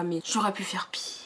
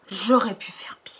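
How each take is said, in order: First: Soft whispered confession; whispered aside. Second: Whispered aside. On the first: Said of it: "confiding aside". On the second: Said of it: "repeated aside". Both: Real, not acted. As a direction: whisper it like a guilty secret. (murmuré en confidence)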